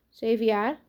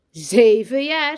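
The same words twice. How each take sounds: First: Higher, modest rising answer; small boy answering. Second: Loud, slow, drawn-out repeat; emphatic echo. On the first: New boy tells teacher his age, plainly. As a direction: answer simply with a small upward lift. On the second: Teacher shows off new boy's age, loudly emphatic. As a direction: stretch it out loudly for everyone to marvel at. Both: A narrator's reading.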